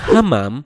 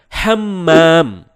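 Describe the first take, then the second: First: The middle m sound is short and single. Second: The middle m sound is held and doubled. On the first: It means pigeon. "tanpa tekanan yakni hamam" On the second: It means bathroom. "dengan tekanan menjadi hammam"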